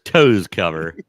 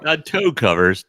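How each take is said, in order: First: "toes" stressed, loud and lower; "toes cover", toes stressed as the right form. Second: Toe covers said loud, stress on toe; "toe covers" as the wrong form, toe stressed; contrast stress. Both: Shown as a demonstration. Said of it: "Socks would be toes cover or toe covers".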